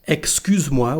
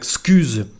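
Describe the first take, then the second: First: Every syllable of the phrase is said in full. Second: The first syllable is dropped, the phrase is shortened. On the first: "instead of saying excuse-moi when we speak" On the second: "we say something like"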